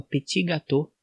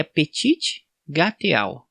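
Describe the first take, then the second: First: Petit gâteau said the French way as "peti gato", final letters silent; French pronunciation. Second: Petit gâteau read letter by letter as "petchitchi gateau"; literal Brazilian reading. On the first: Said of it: "fala do jeito correto". (petit gâteau com pronúncia francesa, "peti gatô") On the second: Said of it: "se fosse ler ao pé da letra". (petit gâteau lido ao pé da letra, "petchitchi gateau") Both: Shown as a demonstration.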